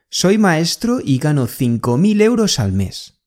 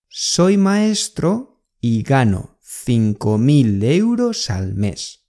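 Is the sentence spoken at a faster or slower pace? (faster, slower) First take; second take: faster; slower. First: The sentence is spoken at normal conversational speed. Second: The sentence is spoken more slowly and carefully.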